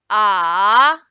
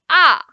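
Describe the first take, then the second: First: The pitch dips low, then rises. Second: The pitch falls sharply from high to low. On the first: "the third tone is going down, then going up" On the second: "the fourth tone we are going down"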